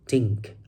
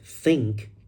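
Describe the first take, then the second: First: The word begins with an s sound. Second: The word begins with a th sound. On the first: The speaker calls it wrong. "Many learners replace it with S" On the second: The speaker calls it right. "But the correct sound is th"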